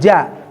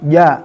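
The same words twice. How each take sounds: First: The j sound is breathy with escaping air. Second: The j sound is firm without escaping breath. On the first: The speaker calls it wrong. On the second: The speaker calls it right.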